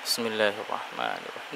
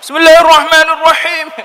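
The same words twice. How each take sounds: First: It is said very quietly, almost inaudibly. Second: It is said very loudly, almost shouted. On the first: "Tidak dengar sama sekali" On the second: "Terlalu bersemangat ya"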